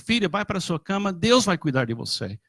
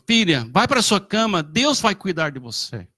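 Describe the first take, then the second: First: It is said a little louder. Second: It is said loudest, as a firm order.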